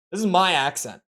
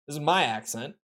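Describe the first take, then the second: First: The word "is" leans slightly heavier than the rest; stress on IS. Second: "my" lifted with a rising tune and slightly softer; stress on MY. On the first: Streamer to chat about an accent list, slight stress on "is". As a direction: insist it really "is" her accent, weight on "is". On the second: Streamer tells chat the snubbed accent is hers, stress on "my". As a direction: claim the accent as hers by leaning on "my". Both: Real, not acted.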